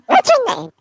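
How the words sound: It is said in a high voice.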